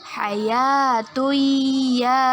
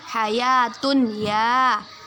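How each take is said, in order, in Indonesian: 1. Huruf n menyatu ke dalam y panjang yang sengau. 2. Huruf n diucapkan terpisah sebelum y. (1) "bacaan yang benar ialah hayatuya dengan berdengung dua harokat" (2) "Awalnya kita baca ini"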